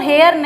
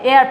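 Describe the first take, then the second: First: The initial h is sounded. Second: The initial h is silent. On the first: The speaker calls it wrong. "इसको हेयर नहीं पढ़ते" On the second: The speaker calls it right. "एयर पढ़ते हैं"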